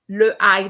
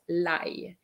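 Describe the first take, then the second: First: The article and vowel are said separately. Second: The article merges into the following vowel. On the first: The speaker calls it wrong. "le ail doesn't sound as nice" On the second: The speaker calls it right. "as nice as l'ail"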